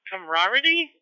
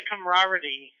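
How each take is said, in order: First: "Camaraderie" said higher and louder as a question; unsure pronunciation check. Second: Said in the usual way. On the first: Real, not acted. Net operator checking a word he can never pronounce, "Camaraderie" as unsure question. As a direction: query the word "Camaraderie", unsure of saying it right. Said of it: "Is that how you say it?". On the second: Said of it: "I can never pronounce this word right".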